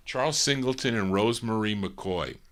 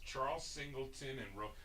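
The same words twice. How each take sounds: First: Said in the usual way. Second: Very soft, higher murmur, breaking off; muttered reading. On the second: Real, not acted. Host checking songwriter names, barely audible reading to himself. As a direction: skim the names under the breath. Reads credits to himself first.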